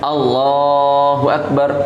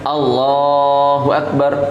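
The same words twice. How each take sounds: First: The vowel after b in Akbar is short. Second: The vowel after b in Akbar is short.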